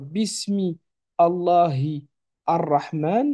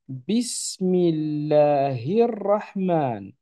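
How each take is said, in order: First: The words are said separately, without linking. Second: The words are linked into one flowing unit. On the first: The speaker calls it wrong. "non pas" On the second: The speaker calls it right. "on a en plus de ça une liaison"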